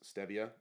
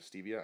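First: The first syllable sounds like 'stay'. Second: The first syllable sounds like 'stee'. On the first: It follows the discoverer's name, Esteban. "which is why I then would assume it's pronounced stevia" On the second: It does not follow the discoverer's name. "instead of stevia"

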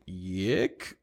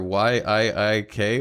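First: The name is said as one syllable, 'yick'. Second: The name is spelled out letter by letter.

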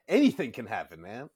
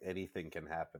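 First: It is said in a positive, upbeat tone. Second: It is said in a negative, ominous tone.

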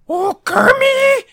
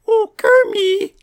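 First: It is said in an angry Miss Piggy voice. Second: It is said in a sweet Miss Piggy voice.

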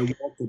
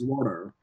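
First: It is said in a non-American accent. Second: It is said in an American accent. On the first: This is the speaker's usual way of speaking. "my water" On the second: The speaker is copying the people around them. "becomes water"

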